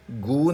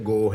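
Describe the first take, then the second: First: گو with a long "oo" vowel, as "goo"; wrong vowel demo. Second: گو with a long "o" vowel, as "go"; correct vowel demo. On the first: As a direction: say گو to rhyme with "too". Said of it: "گو نہیں بولنا آپ نے". (گو کو لمبے "اُو" کے ساتھ "گُو" بولیں) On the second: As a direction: say گو to rhyme with "so". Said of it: "یہ گو ہے". (گو کو "او" کی آواز کے ساتھ بولیں) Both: Shown as a demonstration.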